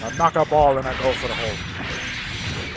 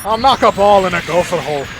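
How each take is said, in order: First: Lower, softer Scottish brogue; quieter Scottish musing. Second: Brisk Scottish brogue, a bit louder; a mock Scotsman pitching his silly game; Scottish golf inventor. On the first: Retold or imitated. Scotsman quietly restating his golf idea in a low brogue. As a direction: muse it quietly like a scheming Scotsman. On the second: Scotsman inventing golf, in a quick Scottish brogue. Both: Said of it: "a riff on, like, Robin Williams' Origin of Golf".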